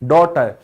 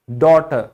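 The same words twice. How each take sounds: No difference in how they are said.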